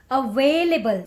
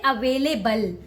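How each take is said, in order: First: The stress is on the second syllable. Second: The stress is not on the second syllable. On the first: The speaker calls it right. "Where you need to stress on way" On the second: The speaker calls it wrong. "Don't say available"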